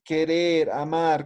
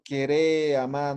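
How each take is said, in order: First: Said in the usual way. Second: "querer, amar" without final r, as queré, amá; imperative form. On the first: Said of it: "Munaña es querer". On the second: Shown as a demonstration. Teacher asking for the order form, "querer, amar" said as queré, amá. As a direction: stress the open endings of "querer, amar", dropping each r. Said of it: "frases de orden".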